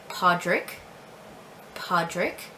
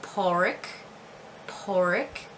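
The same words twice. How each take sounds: First: Podrick with the d sounded, "PAW-drik"; family's pronunciation. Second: Porrick with no d, "POR-ik"; alternative pronunciation. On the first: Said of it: "but we do say Podrick". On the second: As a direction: drop the d in Porrick, rising. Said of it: "can also be pronounced Porrick". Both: Shown as a demonstration.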